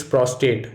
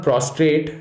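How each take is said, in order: First: "prostate" without a second r; "prostate" said PROS-tate; right prostate. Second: "prostrate" with an extra r, slowly; "prostrate" said PROS-trate; wrong prostrate. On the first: Teacher showing students the right way, "prostate" without the r. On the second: Teacher showing students the wrong way, "prostrate" with an r. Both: Shown as a demonstration. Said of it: "the gland contains no R".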